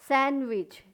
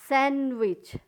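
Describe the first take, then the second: Both takes have the same delivery.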